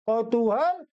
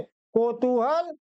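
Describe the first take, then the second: First: कौतूहल begun with an au vowel, kau; correct pronunciation. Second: कौतूहल begun with a pure o, ko; wrong pronunciation. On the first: Teacher recaps the correct form, कौतूहल said with kau. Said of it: "शुद्ध है". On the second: Teacher recaps the wrong form, कौतूहल said with ko. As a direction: say कौतूहल as ko-tu-hal. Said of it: "कौतूहल अशुद्ध है". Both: Shown as a demonstration.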